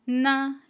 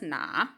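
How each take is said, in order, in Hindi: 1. स्वर ऊँचे से तेज़ी से गिरता है। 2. स्वर नीचे जाता है, फिर ऊपर उठता है। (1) "फॉलिंग टोन के साथ है" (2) "थर्ड टोन के साथ"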